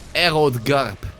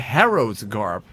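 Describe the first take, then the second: First: The first word begins without an H sound. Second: The first word begins with an H sound.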